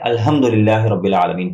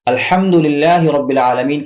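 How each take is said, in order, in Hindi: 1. h एक हल्की, सांस वाली आवाज़ है। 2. h को बीच गले से ज़ोर से धकेला जाता है। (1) "पढ़ते हैं, जो बिल्कुल सरासर गलत है।" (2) "के बजाय"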